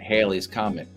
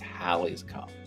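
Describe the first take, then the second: First: The first syllable is said like 'hay'. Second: The first syllable is said like 'hal'. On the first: The speaker calls it wrong. "people mispronounce the comet's name all the time" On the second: The speaker calls it right. "the correct name is Halley's comet"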